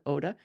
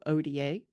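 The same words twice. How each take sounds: First: The letters are named with Spanish letter sounds. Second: The letters are named with English letter sounds. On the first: This is how the group itself says it. "but they call it" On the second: This is how people in the United States say it. "In the United States, we tend to go"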